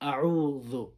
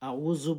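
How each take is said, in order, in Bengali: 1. মধ্যের ব্যঞ্জনধ্বনিটি একটি কোমল 'dh' ধ্বনি। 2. মধ্যের ব্যঞ্জনধ্বনিটি একটি কঠিন 'z' ধ্বনি। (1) "জালের উচ্চারণ একটু নরম করে করতে হয়" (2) "আউযু বললে আপনার উচ্চারণ ভুল হবে"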